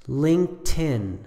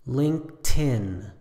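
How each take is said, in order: First: The word is said with two syllables. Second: The same.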